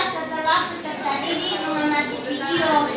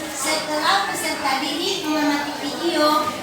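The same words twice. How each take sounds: Both takes have the same delivery.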